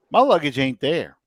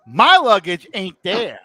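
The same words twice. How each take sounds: First: Stated plainly, a touch of disbelief; flat statement. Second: Louder and slower, punching MY; emphatic repeat. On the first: To the listener, plainly stating the lost luggage. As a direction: let the fact land, no push. Repeating the loss for emphasis. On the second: To the listener, emphatically repeating the lost luggage. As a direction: drive the point home, slow and loud. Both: Real, not acted.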